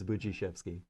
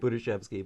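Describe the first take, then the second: First: The name starts with a 'booj' sound. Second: The name starts with a plain 'bood' sound. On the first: The speaker calls it right. "but it's it's" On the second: The speaker calls it wrong. "You look at the D and you want to say"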